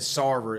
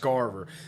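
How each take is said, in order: First: The name is said without a k sound. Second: The name is said with a k sound. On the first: The speaker calls it wrong. "I actually mispronounced his name. I said Sarver" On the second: The speaker calls it right. "It's Scarver"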